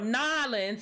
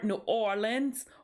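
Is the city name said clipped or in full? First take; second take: clipped; full. First: The city name is squeezed into two syllables. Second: The city name is said in full.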